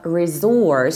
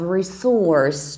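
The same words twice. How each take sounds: First: The middle consonant is a z sound. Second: The middle consonant is an s sound. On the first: "stressing the second syllable with Z" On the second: "stressing the second syllable with S"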